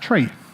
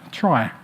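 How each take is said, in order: First: The word rhymes with see. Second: The word rhymes with sky. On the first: It follows the origin of the term. "who pronounced it as tree, after the middle syllable of retrieval" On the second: It separates the term from a similar one. "other authors pronounce it as try"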